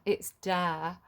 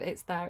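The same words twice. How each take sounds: First: "dare" said with a hard D in place of the TH of "there"; imitating a broad northern singer saying "dare". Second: Said in the usual way. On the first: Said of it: "he'd pronounced the there as dare". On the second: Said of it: "Instead of".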